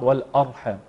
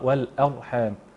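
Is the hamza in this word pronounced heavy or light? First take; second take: heavy; light. First: The hamza is pronounced heavy and thick. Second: The hamza is pronounced light and thin. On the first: The speaker calls it wrong. "قد يقراها البعض" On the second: The speaker calls it right. "الاعتناء بترقيق الهمزه"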